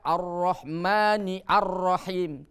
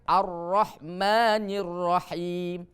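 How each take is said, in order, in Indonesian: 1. Hamzah dibunyikan sebelum Rahim. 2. Kedua kata tersambung tanpa hamzah. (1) "Tidak boleh kita baca" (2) "tapi dibacanya"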